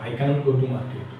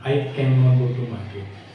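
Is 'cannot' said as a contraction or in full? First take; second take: contraction; full. First: 'Cannot' is contracted into the single word 'can't'. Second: 'Cannot' is said in full, as two words. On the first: "कांट या कैन नॉट दोनों बोल सकते हैं" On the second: "कांट या कैन नॉट दोनों बोल सकते हैं"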